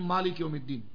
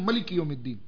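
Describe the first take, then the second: First: The first vowel of the first word is long. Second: The first vowel of the first word is short. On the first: This follows one accepted reading of the text. "ہم پڑھتے ہیں" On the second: This follows another accepted reading of the text. "دوسرے ائمہ پڑھتے ہیں"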